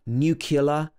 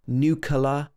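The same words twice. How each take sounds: First: The word begins with a 'nuc' sound. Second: The same.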